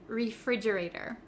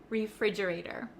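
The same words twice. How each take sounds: First: The T sounds like a soft D. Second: The same.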